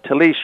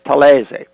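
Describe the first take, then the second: First: The name is said with English pronunciation. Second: The name is said with Italian pronunciation. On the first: "you pronounce it. That's proper in English" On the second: "but in Italy it's Talese"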